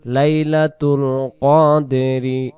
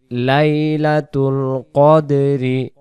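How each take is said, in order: Both takes have the same delivery.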